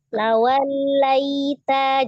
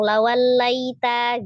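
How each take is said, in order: First: The sound before 'laita' is held slightly longer. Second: The sound before 'laita' is cut short, rushed. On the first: The speaker calls it right. "cuma dia satu setengah aja" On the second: The speaker calls it wrong. "jangan langsung lawan laita gitu"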